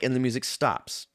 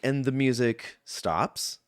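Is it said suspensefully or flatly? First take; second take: flatly; suspensefully. First: It is said flatly, as a plain statement. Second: It is said with suspense, building anticipation.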